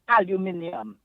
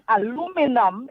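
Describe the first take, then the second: First: The word is said the British way. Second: The word is said the American way. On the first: "That's how the English say it" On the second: "aluminum is how the Americans say it"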